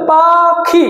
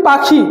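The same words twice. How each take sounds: First: "পাখি" split into two held beats, paa, khi; syllable by syllable. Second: Said in the usual way. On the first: Shown as a demonstration. Teacher counting syllables in a word, "পাখি" slowly divided. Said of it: "দুটো syllable". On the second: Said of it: "আমি যদি বলি পাখি".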